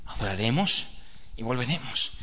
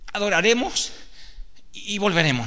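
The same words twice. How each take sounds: First: Lower, softer "adoraremos y volveremos" in a tired father's voice; weary father. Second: Put-on higher, earnest child's voice quoting "adoraremos y volveremos"; boy reminding father. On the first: Acted. The father repeats his promise to his son, lower and softer. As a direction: answer "adoraremos y volveremos" low and heavy. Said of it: "Sí". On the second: The son reminds his father of his promise, higher and earnest. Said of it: "Isaac dice".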